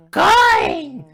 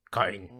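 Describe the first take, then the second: First: Very high, loud shriek; crazed piercing yell; screaming. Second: Said in the usual way. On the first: Acted. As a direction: shriek the single word at the coin. Escalating shouting exchange with coin.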